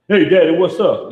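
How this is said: It is said in a cocky, chest-out tone.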